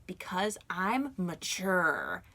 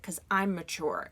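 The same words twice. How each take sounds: First: Drawn out, slow and calm; calm and mature to the old lady; slow, composed. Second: Said in the usual way. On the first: Retold or imitated. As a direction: lay it down slowly and calmly. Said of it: "I was like". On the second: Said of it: "I was just like".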